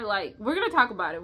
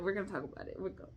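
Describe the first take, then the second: First: Said in the usual way. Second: Soft repeat muttered to herself; quiet. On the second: Real, not acted. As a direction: say it under your breath.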